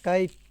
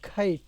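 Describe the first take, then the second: First: The k sound is plain, without a puff. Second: The k sound is aspirated, with a puff. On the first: "আপনি বলেন না কাইট" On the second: "এটা বলে খাইট"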